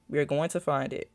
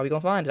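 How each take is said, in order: First: A touch of mock-proper enunciation; careful full form. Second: Said in the usual way. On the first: Shown as a demonstration. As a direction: land on "going to" as two full words. Careful restatement after casual version.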